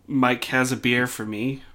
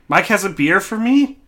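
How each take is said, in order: First: It is said as a statement, falling. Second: It is said as a question, rising.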